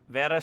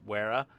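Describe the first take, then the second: First: The word begins with a V sound. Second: The word begins with a W sound. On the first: The speaker calls it right. "a W is pronounced as a V in Germany" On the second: The speaker calls it wrong. "if you're not as uh, internationally cultured as I am"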